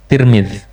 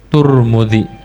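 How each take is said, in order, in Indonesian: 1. Suku kata pertama memiliki vokal i. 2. Suku kata pertama memiliki vokal u. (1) "benar-benar kasrah ta dan mim" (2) "yang dikatakan oleh orang yang itqan, ahlul ma'rifah dibacanya"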